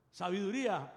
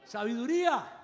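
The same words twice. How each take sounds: First: Said in the usual way. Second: Louder proclaimed sabiduría; proclaimed answer. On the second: Real, not acted. Preacher answers his own question to the congregation, louder. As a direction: ring out Sabiduría with force. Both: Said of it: "Qué pidió Salomón".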